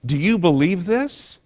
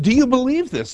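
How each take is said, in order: First: Said in the usual way. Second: Higher, pressing question on "you"; emphatic challenge. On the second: Shown as a demonstration. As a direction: push "you" up high, really asking them. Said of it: "do you really believe this is the truth?".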